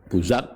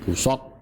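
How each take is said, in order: First: The middle consonant is a voiced z sound. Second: The middle consonant is a heavy, emphatic s. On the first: "atau za" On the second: "dengan huruf shad"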